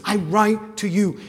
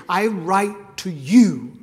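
First: "write" punched, falling tune; stress on WRITE. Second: "I write to you" slow, loud, each word weighted; stress on write. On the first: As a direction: hit the word "write" hard. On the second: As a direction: lean hard on "I write to you". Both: Shown as a demonstration. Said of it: "And look at the emphasis".

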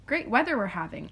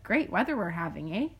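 First: Said in the usual way. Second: "eh" tacked on with a rising question; Canadian eh tag. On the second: Shown as a demonstration. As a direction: end "having" with "eh?" asked upward like a Canadian. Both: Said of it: "Or you could be like".

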